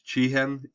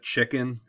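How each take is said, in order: First: The name is said as 'chee-hen' without a k. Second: The name is said like the word chicken. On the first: The speaker calls it right. "it's chihen itza" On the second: The speaker calls it wrong. "it's not chicken"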